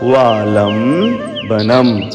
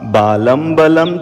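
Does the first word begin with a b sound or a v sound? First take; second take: v; b. First: The first word begins with a v sound. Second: The first word begins with a b sound. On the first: The speaker calls it right. "पहले वा वन का है, सो पढ़िएगा वालम" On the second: The speaker calls it wrong. "कहीं आप बालम बलम तो नहीं पढ़ते हैं"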